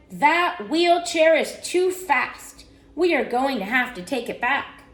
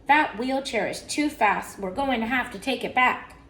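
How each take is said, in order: First: Stern father. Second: Lightly voiced, understated echo; mother's agreement. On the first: Father rules on the speedy wheelchair, emphatic storybook sternness. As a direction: lay down the law, word by word. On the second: Mother backs father about the wheelchair, mild firm echo. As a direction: agree firmly but more casually. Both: A narrator's reading.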